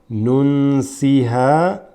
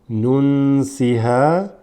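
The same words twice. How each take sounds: No difference in how they are said.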